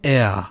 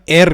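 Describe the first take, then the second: First: The r is soft, halfway toward gh. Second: The r is a plain, clear r sound. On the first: This is the standard German way. "یه چیزی بین این دوتا" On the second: Some regional speakers say it this way. "یه سریا ار میگن"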